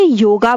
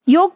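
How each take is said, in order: First: The word ends with an added final 'a' vowel. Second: The word ends on the consonant 'g' sound. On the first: The speaker calls it wrong. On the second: The speaker calls it right.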